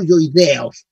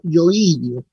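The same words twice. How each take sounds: First: Yoideos said slowly with an e sound, the form to avoid; wrong pronunciation. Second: Yoidios said slowly with the accent on the I, yo-I-dios; correct pronunciation. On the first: Teacher showing students the wrong form, slow yoideos. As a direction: say yoideos deliberately, as the mistake to avoid. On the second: Teacher correcting anatomy students, yoidios stressed on the I. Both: Shown as a demonstration. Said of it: "tienen como acento en la I".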